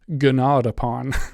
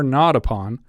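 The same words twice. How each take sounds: First: The G at the start is sounded. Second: The G at the start is silent.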